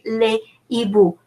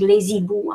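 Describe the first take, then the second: First: No z sound links les to hiboux. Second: A z sound links les to hiboux. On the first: The speaker calls it right. "I'm saying ... I'm not making the liaison" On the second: The speaker calls it wrong. "I'm not saying"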